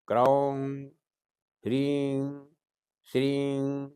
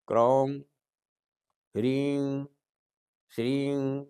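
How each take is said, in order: Both takes have the same delivery.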